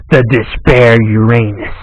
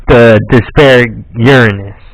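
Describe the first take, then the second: First: Uranus said as "yu-RAY-nus"; alternate pronunciation. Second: Uranus said as "YUR-uh-nus"; corrected pronunciation. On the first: Player trying out a card's name, Uranus as "yu-RAY-nus". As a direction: stress the second syllable of Uranus, a long "ray". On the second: Player settling on a card's name, Uranus as "YUR-uh-nus". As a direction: stress the first syllable of Uranus, swallow the middle. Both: Shown as a demonstration. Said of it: "how you pronounce that".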